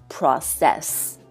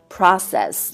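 First: The stress is on the second syllable. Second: The stress is on the first syllable. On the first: The speaker calls it wrong. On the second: The speaker calls it right.

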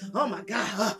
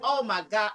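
First: It is said in a grumbling, stressed tone. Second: It is said in a delighted, warm tone. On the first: The speaker is stressed and wants to be left alone. The speaker calls it wrong. "If you come in grumbling and, oh my God" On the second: The speaker is happy to be home with their partner. The speaker calls it right. "Get up and say, oh my God, I am so glad to be home to you"

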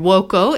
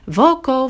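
First: The word begins with a w sound. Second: The word begins with a v sound.

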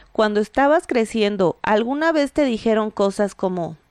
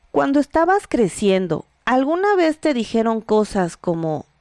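The two takes are said the same way.

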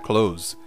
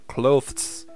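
First: No 'th' sound, it sounds like 'close'. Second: A 'th' sound is heard before the s. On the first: "é muito mais comum falar clothes" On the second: "como o TH seguido de S é muito difícil de pronunciar, ficando clothes"

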